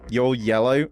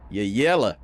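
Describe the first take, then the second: First: Said in the usual way. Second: "You're yellow" with a falling, taunting "yellow"; Western taunt. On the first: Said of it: "I guess that means cowardly". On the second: Shown as a demonstration. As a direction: sneer "You're yellow" like a cowboy. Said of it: "Always hear that in Westerns".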